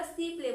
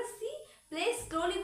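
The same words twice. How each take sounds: First: Said in the usual way. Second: Higher and slower, acting out slowly; slow, drawn-out demo. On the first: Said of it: "वो खेल रही है". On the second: Shown as a demonstration. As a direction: stretch "slowly" out to show slowness. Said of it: "वो बहुत धीरे खेल रही है".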